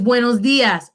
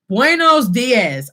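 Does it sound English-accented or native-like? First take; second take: native-like; English-accented. First: It is said with a native Spanish accent. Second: It is said with an English-speaker's accent. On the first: The speaker calls it right. "It's buenos dias" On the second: The speaker calls it wrong. "You don't want to say buenos dias"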